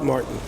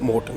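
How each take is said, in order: First: The name is said with an English-style pronunciation. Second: The name is said with a Swedish pronunciation. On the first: This is how it is said abroad. "abroad, Martin" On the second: This is how it is said at home. "We're in Sweden, so Morton"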